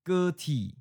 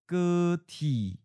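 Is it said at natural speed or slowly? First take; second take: natural; slowly. First: It is said at a natural, normal speed. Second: It is said slowly and deliberately. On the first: "First natural speed" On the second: "and then slowly"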